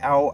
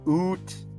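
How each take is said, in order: First: The vowel sounds like 'ow', a standard accent. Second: The vowel sounds like 'oo', a mock Canadian accent. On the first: "not like ow" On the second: "I slept like a Canadian because you know I was ooh"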